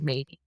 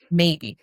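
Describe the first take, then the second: First: Lower, softer worn-out answer; tired mom answering yet again; weary maybe. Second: Said in the usual way. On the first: Retold or imitated. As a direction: give up and mumble maybe. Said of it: "I said". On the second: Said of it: "So if it's like".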